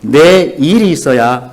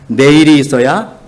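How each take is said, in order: First: 내 and 일 are said with a break. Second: 내일 is said as one word. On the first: One must have one's own work. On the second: Tomorrow must exist.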